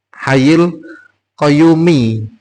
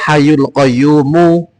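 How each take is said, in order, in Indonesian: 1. Kata-kata itu berakhir dengan harakat i. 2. Kata-kata itu berakhir dengan harakat u. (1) "Haknya kasroh" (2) "ini dibaca domah-domah"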